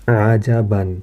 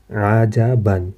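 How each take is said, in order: First: Said in the usual way. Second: عجباً drawn out slowly with a falling end; slow Arabic reading. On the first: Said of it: "سب سے پہلے ہمارے پاس". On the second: Shown as a demonstration. Teacher modelling the word for students, slowly. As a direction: stretch each sound of عجباً. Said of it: "ہجے کے ساتھ اگر ہم لوگ پڑھیں".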